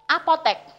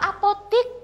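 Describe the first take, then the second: First: The last syllable is said with an 'e' vowel. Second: The last syllable is said with an 'i' vowel. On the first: The speaker calls it right. "Yang betul itu adalah yang apotek" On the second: The speaker calls it wrong. "sebenarnya penyebutan kata apotik itu salah ya"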